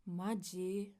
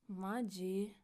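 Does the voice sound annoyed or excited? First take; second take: annoyed; annoyed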